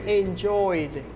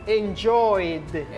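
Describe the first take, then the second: No difference in how they are said.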